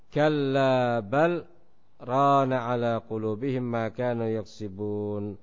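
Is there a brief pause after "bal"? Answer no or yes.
yes. There is a brief pause after "bal". "diam sejenak, berhenti tetapi tidak mengambil nafas"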